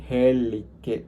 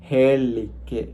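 Both takes have the same delivery.

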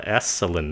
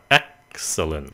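First: The 'ex' has no throat stop before the hiss. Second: The 'ex' has a throat stop before the hiss. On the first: The speaker calls it wrong. "đừng có nói là excellent" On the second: The speaker calls it right. "nó là excellent"

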